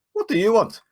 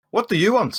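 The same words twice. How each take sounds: First: High, loud, confrontational demand; raised, defiant in-character challenge; challenging character voice in Goblin. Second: High, loud repeated demand; raised, confrontational in-character question; challenging character voice in common tongue. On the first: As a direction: square up to a goblin. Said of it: "as he replies in Goblin". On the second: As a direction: demand it firmly of a goblin. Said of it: "in non-Goblin this time". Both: Acted.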